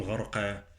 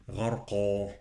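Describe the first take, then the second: First: Thin qaf with fronted "-qe" ending in "غرقا"; quick mistaken "غرقا", final vowel light; wrong light qaf. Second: Heavy qaf with dark, drawn "-qɑ" in "غرقا"; emphatic qaf. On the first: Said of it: "لا أقول". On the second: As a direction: recite "غرقا" with a full back vowel. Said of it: "تفخيم". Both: Shown as a demonstration.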